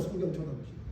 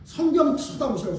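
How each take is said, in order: First: Much softer, lower echo; soft repeat. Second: Said in the usual way. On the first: Shown as a demonstration. Pastor urging congregation, soft low echo. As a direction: let it sink in quietly. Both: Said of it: "repeated take".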